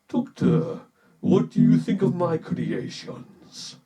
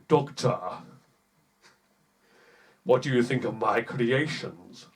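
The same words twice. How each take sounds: First: The voice is processed through an effect. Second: The voice is plain with no effect. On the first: "Let's try turning on the effect" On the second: "Doesn't sound that good"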